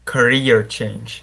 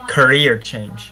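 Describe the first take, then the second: First: Career change slowly, syllables pulled apart; too slow. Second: Career change said slowly, loud; quicker take. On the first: Student practicing before the teacher's correction, slow. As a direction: drag out Career with a pause between syllables. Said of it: "say career a little bit faster". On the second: Student retrying after being told to go faster, louder. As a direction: tighten Career change, less pause between syllables. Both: Real, not acted.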